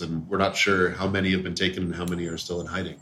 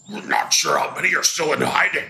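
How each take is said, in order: First: Said in the usual way. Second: Laughing orc voice; quick stab at an orc. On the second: Acted. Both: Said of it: "I'm missing a great opportunity to do an orc voice".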